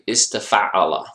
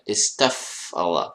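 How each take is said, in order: First: An extra vowel follows the f sound. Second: The f closes the syllable with no vowel. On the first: The speaker calls it wrong. "Don't say istafa'ala. That's a, that's a common beginner mistake" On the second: The speaker calls it right. "there is a sukoon here"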